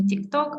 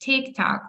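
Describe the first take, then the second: First: The stress is on the second syllable. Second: The stress is on the first syllable. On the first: The speaker calls it wrong. "не TikTok" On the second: The speaker calls it right. "ми вимовляємо назву соцмереж, наголошуючи перший склад"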